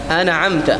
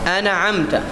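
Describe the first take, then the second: Both takes have the same delivery.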